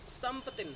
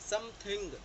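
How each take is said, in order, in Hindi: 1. बीच में p की आवाज़ जोड़ी जाती है और आख़िरी g छोड़ दिया जाता है। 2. यह पूरा बोला गया है, आख़िरी g साफ़ सुनाई देता है। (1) "वो बीच में पी डालते हैं" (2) "हम बोलते हैं समथिंग"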